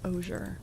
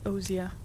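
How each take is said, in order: First: The word is said with an American pronunciation. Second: The word is said with a British pronunciation. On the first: "Americans pronounce it as osier" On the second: "British British pronunciation is osier"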